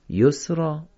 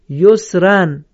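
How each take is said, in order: First: The word ends with a long open 'a' sound. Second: The word ends with a nasal 'an' sound. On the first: The reciter stops on this word. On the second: The word is joined to what follows.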